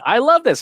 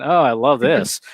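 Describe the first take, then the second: First: High, bright-pitched heartfelt "I love this"; sincere delight. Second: Dry sarcastic "Oh, I love this". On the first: Speaker demonstrating sincere praise for sarcasm contrast, sincere delight. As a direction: say it like you truly mean it. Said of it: "cannot tell the difference between". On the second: Speaker demonstrating what machines cannot detect, sarcastic. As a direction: feign love, meaning the opposite. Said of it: "is sarcasm". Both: Shown as a demonstration.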